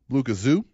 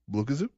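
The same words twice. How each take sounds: First: Said with strong stress on the syllable zoo. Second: Said quickly, with no extra stress on zoo. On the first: "With the emphasis maybe on zoo" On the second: "Like quick one"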